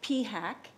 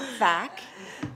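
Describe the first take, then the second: First: It starts with a separate P, then hack. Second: It starts with an F sound, like fack. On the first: The speaker calls it right. "P HAC, not F A C" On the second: The speaker calls it wrong. "not F A C"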